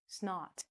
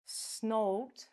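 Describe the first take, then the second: First: "snot" with an ah vowel, rhyming with not; correct short vowel. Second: "snot" with a long O, like "snote"; wrong long vowel. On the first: Teacher showing the right word, "snot" like not. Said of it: "We say". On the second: Teacher showing the mistake, "snot" mispronounced as snote. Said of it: "We don't say". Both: Shown as a demonstration.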